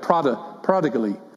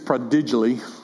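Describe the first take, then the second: First: The stress falls on the first syllable. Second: The stress falls on a later syllable. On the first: The speaker calls it right. "the emphasis is on the first syllable" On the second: The speaker calls it wrong. "I don't think it's prodigally"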